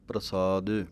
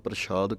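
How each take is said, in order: First: The middle consonant is a plain 's' sound. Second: The middle consonant is a 'sh' sound. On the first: The speaker calls it right. "ਸਸੇ ਦੇ ਨਾਲ ਬੋਲਣਾ ਹੈ ਬਿਨਾਂ ਬਿੰਦੀ ਤੋਂ" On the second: The speaker calls it wrong. "ਇੱਕ ਤਾਂ ਬਿੰਦੀ ਕੋਲੋਂ ਲਾ ਦਿੰਦੇ ਹਾਂ"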